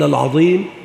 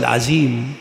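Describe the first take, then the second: First: The middle consonant is a voiced th-like sound. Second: The middle consonant is a z sound. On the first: It names God as the Magnificent. The speaker calls it right. "تجتهد في إخراج اللسان من بين الأسنان في العظيم" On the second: It names God with a name He did not give Himself. The speaker calls it wrong. "إذا لم تخرج لسانك وجئت بالزاي"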